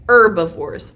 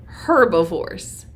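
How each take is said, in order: First: Herbivores said without the H; silent H. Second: Herbivores with the H pronounced; sounded H. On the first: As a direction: start herbivores on the vowel, "erb-ivores". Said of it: "Can you say that?". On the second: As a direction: breathe a clear H to open herbivores. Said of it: "herbivores or herbivores". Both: Shown as a demonstration.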